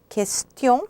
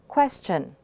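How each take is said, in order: First: The ending sounds like 'tyon' with a nasal vowel. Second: The ending sounds like 'chun' with a plain vowel. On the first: "In French, question with tion" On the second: "and in English, question, chun"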